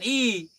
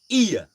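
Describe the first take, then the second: First: The word is one short, plain vowel. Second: The vowel glides into a second sound. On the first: A new learner of the language says it this way. The speaker calls it wrong. "Bukan i" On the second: People who know the language say it this way. The speaker calls it right. "orang yang sudah tahu bahasa Aceh maka akan mengucapkan iya"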